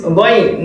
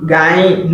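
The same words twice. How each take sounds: First: "going" said ghoyn, with rounded vowel; correct Ghayn. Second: "gain" said ga-yin, with open a vowel; wrong Ghayn. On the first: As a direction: model Arabic "going" slowly. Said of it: "So this is going". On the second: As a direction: demonstrate the incorrect "gain". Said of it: "not gain". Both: Shown as a demonstration.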